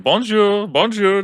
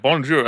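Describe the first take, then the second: First: High, bright sing-song "Bonjour, bonjour" from a tourist; cheery tourist bonjour. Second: "Bonjour" said as a correction, higher, with a firm falling end; the French lady repeats "Bonjour" properly, ending down; correcting bonjour. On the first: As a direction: greet everyone with a much higher, louder "Bonjour". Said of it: "he's like". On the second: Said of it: "pronouncing it". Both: Retold or imitated.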